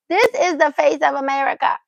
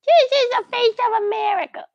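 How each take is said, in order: First: Said in the usual way. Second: This is the face of America in a much higher, louder cooing squeal. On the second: Shown as a demonstration. Mom squealing over her baby's face for viewers. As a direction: squeal it up high like showing off the baby.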